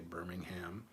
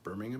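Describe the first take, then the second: First: The final syllable is fully pronounced as 'ham'. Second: The final syllable is reduced and unstressed. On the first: The speaker calls it wrong. "I didn't say Birmingham" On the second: The speaker calls it right. "I said it correctly"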